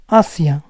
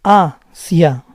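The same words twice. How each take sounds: First: "Asia" repeated in a whisper; teacher whispers "Asia" for the class to copy; whispered echo. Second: "Asia" said as AH-see-ah, open a and i; teacher models "Asia" slowly, vowel by vowel; clear Spanish vowels. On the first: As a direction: breathe "Asia" back with no voice. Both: Shown as a demonstration. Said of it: "focus on how I'm pronouncing the vowels".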